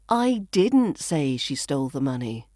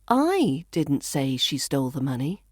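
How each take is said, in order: First: The stress falls on the word didn't. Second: The stress falls on the word I. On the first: It was never said at all. "which implies I never said that" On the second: Someone else said it. "So I could be saying somebody else did"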